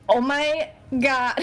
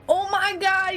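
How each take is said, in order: First: It is said without the character's voice. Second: It is said in the character's voice.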